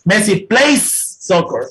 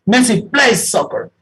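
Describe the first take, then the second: First: Slow, the s of plays held long; stress the final s. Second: Slow, the s of plays made to ring out; stress the final s. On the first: Teacher drilling the final s for students, slow and deliberate. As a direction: lean on the s in plays, slowly. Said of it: "acostumbrémonos". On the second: Teacher making the s resonate for the class, slow. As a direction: sound the s in plays clearly. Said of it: "hagamos lo que resuene ahí, esa consonante". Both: Shown as a demonstration.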